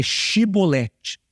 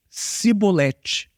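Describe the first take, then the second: First: Chibolete said with sh at the start; shee-bo-LEH-chee, sh clearly marked; correct sh sound. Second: Cibolete said slowly with a plain s, not sh; wrong s sound. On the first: Pastor corrects himself: chibolete with sh. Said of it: "aliás, a palavra é". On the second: Pastor shows the Ephraimite way: cibolete with s. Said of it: "mas na língua deles era". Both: Shown as a demonstration.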